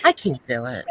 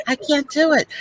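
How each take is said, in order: First: Lower, flat giving up; low defeated. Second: Higher, whiny repeat; higher exasperated. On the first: Angela impression, giving up at a low pitch. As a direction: sink the line down in defeat. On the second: Angela impression, repeating it higher and exasperated. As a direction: lift it up in exasperation. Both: Retold or imitated. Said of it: "so here's my Angela".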